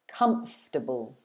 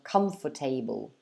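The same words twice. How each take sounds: First: The word is said with three syllables. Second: The word is said with four syllables. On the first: The speaker calls it right. "it should be pronounced with three syllables, like so" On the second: The speaker calls it wrong. "try to pronounce it with four syllables"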